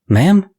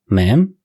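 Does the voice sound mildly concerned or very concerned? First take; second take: very concerned; mildly concerned. First: It sounds strongly concerned and worried. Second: It sounds only mildly concerned.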